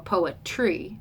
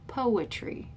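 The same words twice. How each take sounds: First: The stress is on a later syllable. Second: The stress is on the first syllable. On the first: The speaker calls it wrong. "We don't say poetry or poetry, right?" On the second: The speaker calls it right. "the dactyl is stressed and then two unstressed"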